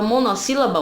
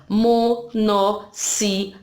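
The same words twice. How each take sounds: First: Said in the usual way. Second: "mo-nos-sí-la-ba" in five slow, separate beats; split into syllables. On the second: Shown as a demonstration. Teacher counting five syllables for pupils, slow "mo-nos-sí-la-ba". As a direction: sound out "monossílaba" one syllable at a time. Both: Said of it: "Tem cinco sílabas".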